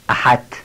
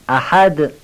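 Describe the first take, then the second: First: The final sound is a voiceless t. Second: The final sound is a voiced d. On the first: The speaker calls it wrong. "این دال تبدیل به ته میشه" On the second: The speaker calls it right. "یه تکان کوچک به دال بدیم که تبدیل به ته نشه"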